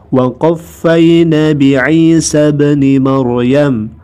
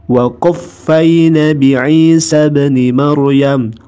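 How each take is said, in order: No difference in how they are said.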